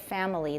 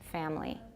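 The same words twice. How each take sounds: First: It is said with three syllables. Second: It is said with two syllables. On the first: "you learned it as family. That has three" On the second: "I'm saying it with two"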